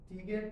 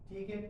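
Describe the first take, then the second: The two takes are said the same way.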